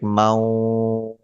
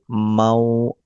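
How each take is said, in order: First: The syllable is stretched out long. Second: The syllable is said short, without stretching. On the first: The speaker calls it wrong. "We don't stretch like mau. No, if you stretch it, so it will become wrong" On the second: The speaker calls it right. "we just read it normally without stretching and without jerking"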